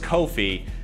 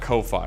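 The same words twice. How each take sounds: First: The second syllable sounds like 'fee'. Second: The second syllable sounds like 'fie'. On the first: The speaker calls it right. "Ko-Fi is pronounced like coffee or no fee" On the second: The speaker calls it wrong. "not Ko-Fi"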